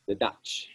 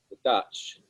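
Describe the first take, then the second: First: "the Dutch" lightly mimicking the film line, stress on "the"; a hint of quoting the movie on "the Dutch"; "the Dutch" as a light quote from the Austin Powers film. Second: Said in the usual way. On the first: Shown as a demonstration. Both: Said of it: "I say it like that 'cause it's Austin Powers quote".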